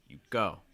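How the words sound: The stress falls on the second word. "Stressing go"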